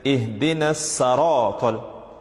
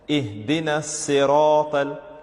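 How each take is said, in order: First: The vowel after the s is an a. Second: The vowel after the s is an i. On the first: The speaker calls it wrong. "saratal, that's wrong" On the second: The speaker calls it right. "with a kasra over the letter sad"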